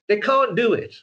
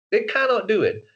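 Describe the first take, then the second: First: "can't" said as a short, hard Eastern European "can't", voice pitched higher; Eastern European accent. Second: "cannot" spelled out in full and stressed, in an Eastern European accent. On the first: Explaining that the dialect never leaves, with a hard "can't". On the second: Insisting they cannot lose the accent, with a stressed "cannot". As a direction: give "cannot" both syllables with a hard Eastern European edge. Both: Shown as a demonstration. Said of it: "if you speak like this".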